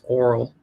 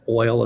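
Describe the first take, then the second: First: It is said in a Southern accent. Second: It is said in a plain standard accent. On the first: "my cousins have these wonderful Southern accents" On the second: "it's not oil"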